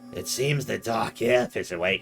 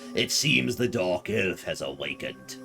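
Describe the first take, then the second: First: It is said in his normal voice. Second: It is said in a Palpatine impression.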